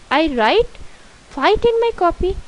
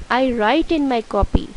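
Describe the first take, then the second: First: High-pitched, questioning reading. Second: Said in the usual way. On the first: Shown as a demonstration. Teacher reads the faulty exercise sentence to pupils, questioning. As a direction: read it high, as if it sounds wrong.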